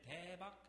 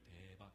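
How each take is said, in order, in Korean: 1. 밝고 명랑하고, 놀란 듯이 길게 발음합니다. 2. 어둡고 우울하고, 짜증 섞인 어투입니다. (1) "밝고 명랑하고 그리고 놀란 듯이 길게" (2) "어둡고 짜증스럽고 어두운 목소리로"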